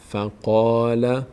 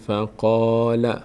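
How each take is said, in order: The two takes are said the same way.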